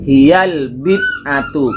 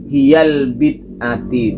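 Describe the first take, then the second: First: The word ends with a 'u' vowel. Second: The word ends with an 'i' vowel. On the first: The speaker calls it right. "tetapi hiyal bid'atu" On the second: The speaker calls it wrong. "Yang benar bukan hiyal bid'ati"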